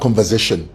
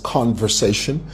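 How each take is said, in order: First: The syllables are loosely and unclearly pronounced. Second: Every syllable is clearly enunciated. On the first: The speaker calls it wrong. "It's not" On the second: The speaker calls it right. "the correct pronunciation is"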